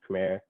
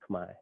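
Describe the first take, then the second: First: It is pronounced as the spelling suggests. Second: It is pronounced the native way. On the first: This is how outsiders read the spelling. The speaker calls it wrong. "most of the world looks at it and says Khmer" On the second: This is how the people themselves say it. The speaker calls it right. "the way we pronounce it is Khmer"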